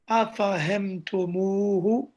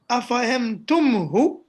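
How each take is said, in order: First: A long oo vowel comes before the final h. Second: There is no long vowel before the final h. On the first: The speaker calls it right. "a waw is added" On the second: The speaker calls it wrong. "it becomes difficult to say"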